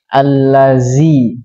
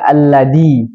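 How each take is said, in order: First: The middle consonant is a z sound. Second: The middle consonant is a d sound. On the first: "mengubah za menjadi zai" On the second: "merubah za menjadi da"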